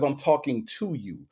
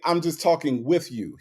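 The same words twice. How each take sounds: First: The word "to" said fully and emphasized; stress on TO. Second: Light emphasis on the word "with"; stress on WITH. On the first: Nitpicking his exact words, stress on "to". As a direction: hit "to" as a clear, full "too". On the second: Nitpicking what he didn't say, stress on "with". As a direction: lean gently on "with", setting it against "to". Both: Shown as a demonstration. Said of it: "there's a difference when you talk with someone or when you talk to".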